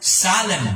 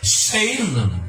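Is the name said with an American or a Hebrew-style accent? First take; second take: Hebrew; American. First: It is said with Hebrew-style, Tagalog-like vowels. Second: It is said with an American English accent. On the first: "Pero kung Hebrew yan, parang Tagalog" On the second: "Amerikano eh"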